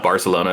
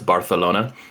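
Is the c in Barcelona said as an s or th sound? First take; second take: s sound; th sound. First: The c is said with an s sound. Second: The c is said with a lisped th sound. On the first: The speaker calls it wrong. "it's not Barcelona" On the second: The speaker calls it right. "they speak with like a, a lisp in in Barcelona"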